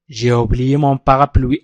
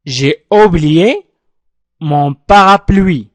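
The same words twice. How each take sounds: First: J'ai oublié mon parapluie run together, a bit slow and lower; joined-up model sentence. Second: J'ai oublié mon parapluie, each word pulled apart very slowly; slow syllable-by-syllable model. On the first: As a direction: say it as one smooth sentence. (نطق متصل للجملة كاملة) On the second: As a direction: dictate it word by word for the class. (نطق بطيء مقطّع كلمة كلمة) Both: Shown as a demonstration. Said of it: "أعيد النطق معي".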